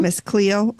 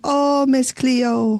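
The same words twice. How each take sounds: First: Said in the usual way. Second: Slow, drawn-out Jamaican accent. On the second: Shown as a demonstration. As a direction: stretch out "Oh, Miss Cleo" in a Jamaican accent. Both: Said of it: "That's all I can do of a Jamaican accent".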